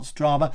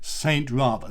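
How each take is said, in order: First: The name begins with a blended 'str' sound. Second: The name begins with the separate word 'Saint'. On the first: The speaker calls it wrong. "it's not Strava" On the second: The speaker calls it right. "it is Saint Rava"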